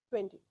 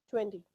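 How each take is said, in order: The two takes are said the same way.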